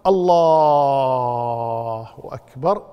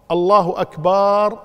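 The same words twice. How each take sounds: First: الله with its "laa" held very long and low, short أكبر; permitted long lam. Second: الله normal, then drag out the final syllable of أكبر; stretched end of أكبر. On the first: Teacher showing a permissible form, الله stretched long before short أكبر. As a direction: drone out the second vowel of الله, keep أكبر short. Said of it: "يجوز". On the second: Teacher showing a forbidden form, long "baar" in أكبر. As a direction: say أكبر as "akbaar", last vowel held long and loud. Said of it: "ما يجوز". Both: Shown as a demonstration.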